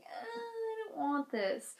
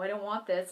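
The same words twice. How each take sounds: First: Soft, high, slow little whimper; meek. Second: Said in the usual way. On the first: Retold or imitated. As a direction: say it small and timid, holding back panic. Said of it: "on the outside I was like". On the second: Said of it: "inside I was like".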